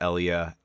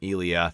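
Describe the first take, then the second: First: The first E sound is soft. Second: The first E sound is hard. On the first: The speaker calls it right. "the more common pronunciation is Elia ... with the soft E" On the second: The speaker calls it wrong. "I was referencing ... as the Eleatics from Elia"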